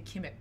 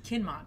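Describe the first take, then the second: First: The name is said like Kimmett. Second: The name is said like Kinmont. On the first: The speaker calls it wrong. "I always want to say Kimmett. I don't know why, but it's not" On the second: The speaker calls it right. "It's Kinmont"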